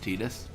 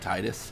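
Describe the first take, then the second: First: The first syllable does not sound like tide. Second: The first syllable sounds like tide. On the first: This is the form from a later game. "because of Kingdom Hearts, just it's ingrained in my brain" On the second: The name is linked to water. "as a kid, I always called him Titus... Tide is water"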